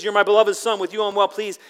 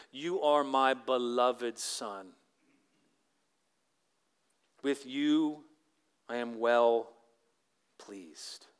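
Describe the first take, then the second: First: Louder and higher, ringing out; joyful proclamation. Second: Slow and tender, fading to a whisper on pleased; hushed reverent reading. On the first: Pastor exclaiming God's words to the congregation, loud and joyful. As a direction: proclaim it with delight. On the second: Pastor reading God's voice to the congregation, slow and hushed. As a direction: let God's words settle, slowly, almost breathed. God's words read from the Bible. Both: Acted.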